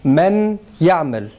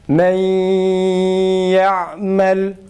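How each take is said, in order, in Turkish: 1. n, y'den önce net bir şekilde okunur. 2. n, burunsu ve uzatılmış bir y sesine karışır. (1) "tecvidsiz ... Nunu okuyoruz" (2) "Şimdi tecvidli okuyoruz ... gunne yaparak"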